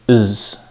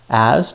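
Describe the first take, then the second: First: The word has a short, weak vowel. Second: The word has a full, clear vowel. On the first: "As turns to is" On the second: "As turns to is"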